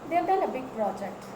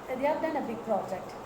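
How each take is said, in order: No difference in how they are said.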